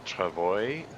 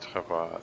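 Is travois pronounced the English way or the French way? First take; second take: English; French. First: The word is pronounced the English way. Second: The word is pronounced the French way. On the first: This is how other people say it. "I've heard people refer to it as the travois" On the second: It sounds fancier. "I like to pronounce it the French way. It feels fancier"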